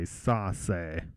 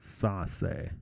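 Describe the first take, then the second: First: The middle consonant is an S sound. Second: The middle consonant is an S sound.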